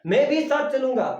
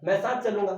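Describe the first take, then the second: First: "भी" पर ज़ोर, ऊँची और तेज़ ज़िद; जिद्दी बच्चे की तरह "भी" दबाओ; insistent child. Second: Said in the usual way. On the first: Retold or imitated. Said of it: "बच्चे कहते हैं ना". (ज़िद करते बच्चे जैसा, "भी" पर ज़ोर) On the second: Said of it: "विशेष बल का प्रयोग कर रहा है".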